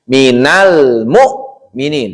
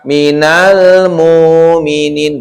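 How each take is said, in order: First: The sukun sound is pressed and cut short. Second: The sukun sound is drawn out and flowing. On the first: The speaker calls it right. "Itu wajib ditekan. ... Tekan saja. Nggak boleh ngalir" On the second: The speaker calls it wrong. "Jadi bukan minal mu'minin. Bukan"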